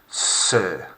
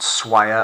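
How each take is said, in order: First: It has a single vowel, like English 'sir'. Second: It begins with a 'sw' glide, like 'swire'. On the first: The speaker calls it right. "That's kind of how it sounds" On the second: The speaker calls it wrong. "not swire"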